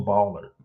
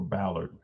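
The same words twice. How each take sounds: First: Ballard with the stress up front; Ballard, first syllable stressed; first pronunciation. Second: Ballard said lower and softer; Ballard, a softer alternative reading; alternative pronunciation. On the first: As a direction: say Ballard as the first of two options. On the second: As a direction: offer Ballard as a quiet second option. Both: Shown as a demonstration. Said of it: "however you wanna pronounce it".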